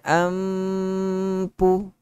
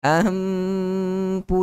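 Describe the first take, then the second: No difference in how they are said.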